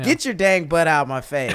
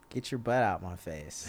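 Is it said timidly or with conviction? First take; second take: with conviction; timidly. First: It is said forcefully, with conviction. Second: It is said without much conviction.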